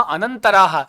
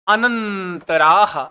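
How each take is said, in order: First: Said in the usual way. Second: अनंतराह very slowly, syllables stretched; drawn-out term. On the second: Shown as a demonstration. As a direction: hold the nasal and long vowel in अनंतराह. Teacher stretches the new term. (अनंतराह को खूब खींचकर, धीरे)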